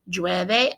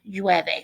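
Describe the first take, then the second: First: The first consonant sounds like an English j. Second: The first consonant sounds like an English y. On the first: The speaker is from parts of South America like Argentina. "they're going to do more of the j" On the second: The speaker is from other parts of the Spanish-speaking world. "other parts of the Spanish-speaking world do y"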